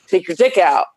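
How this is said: It is said in a harsh, bossy tone. It is meant as a joke. "I'm like a mean mom"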